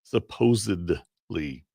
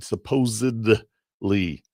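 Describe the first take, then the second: First: The middle consonant is a D sound. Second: The same.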